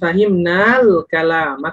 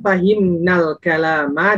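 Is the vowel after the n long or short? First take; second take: long; short. First: The vowel after the n is long. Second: The vowel after the n is short. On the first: We understood the speech. "Kalau nunnya panjang artinya adalah kami" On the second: A group of women understood the speech. "Pertama kalau fahimna al kalama nunnya pendek"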